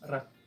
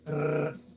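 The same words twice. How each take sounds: First: The R is a single quick tongue tap. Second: The R is rolled with several tongue taps. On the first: This is the sound for a single R. "One R is just R" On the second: This is the sound for a double R. "when there's two R's, that's when you do the R"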